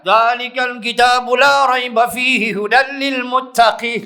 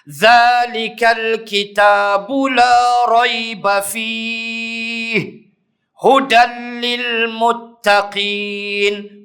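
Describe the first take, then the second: First: It is read straight through without a pause. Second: There is a pause after fihi. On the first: "Tak adalah salah" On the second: "Wajah yang kedua"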